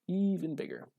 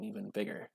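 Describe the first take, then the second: First: "Even" stretched out high, falling into "bigger"; stress on EVEN. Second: Said in the usual way. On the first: Real, not acted. Player dreaming aloud of a better deck, EVEN high and drawn out. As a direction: draw out EVEN on a high, excited note. Repeats the words for emphasis.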